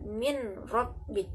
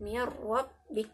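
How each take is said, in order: First: The n is pronounced separately before the r. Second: The n merges into the following r sound. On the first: The speaker calls it wrong. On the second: The speaker calls it right.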